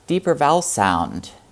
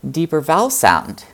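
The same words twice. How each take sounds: First: Pitch and resonance sink low toward the end. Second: Pitch rises on vowel, then falls on sound. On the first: The speaker calls it wrong. "there's a tendency to drop both pitch and resonance" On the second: The speaker calls it right. "if you go up the syllable before, then you can drop back down"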